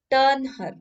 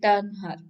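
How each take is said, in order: First: High, loud captain's shout; shouted order. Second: A touch louder reread of the order; half-hearted repeat of the captain's call; mild shout. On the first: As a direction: bark the order across the water. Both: A narrator's reading. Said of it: "he shouted".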